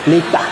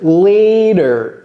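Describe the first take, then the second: First: It sounds like the French word l'état. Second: It sounds like the English word later. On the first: The speaker calls it wrong. "J'ai pas dit l'état, l'état. Ce n'est pas l'état" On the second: The speaker calls it right. "c'est later"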